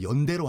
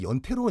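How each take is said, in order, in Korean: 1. 두 번째 음절은 예사 d로 시작해요. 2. 두 번째 음절은 거센 t로 시작해요. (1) "원래 발음대로 연대로 하자" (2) "우리식 발음으로 이제 연태로"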